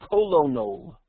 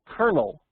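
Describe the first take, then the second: First: It is said as spelled, col-o-nel. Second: It sounds like kernel, two syllables. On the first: The speaker calls it wrong. "and not colonel, which is not a word" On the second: The speaker calls it right. "I'm going to pronounce that word kernel, you know, like a kernel of corn"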